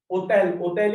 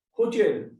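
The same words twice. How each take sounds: First: "Hotel" said French-style, opening on the O; silent H. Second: Said in the usual way. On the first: Shown as a demonstration. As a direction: leave the H off "Hotel" both times. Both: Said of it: "We are not pronouncing this H".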